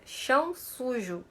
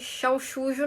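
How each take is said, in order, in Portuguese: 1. As vogais são ditas com clareza, com a boca aberta. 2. As vogais são murmuradas, com a boca quase fechada. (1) "É chão sujo. Abre a boca na hora de falar as vogais" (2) "Nada de, de, de chão sujo não"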